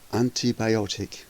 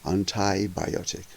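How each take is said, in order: First: It is said in a British accent. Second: It is said in an American accent.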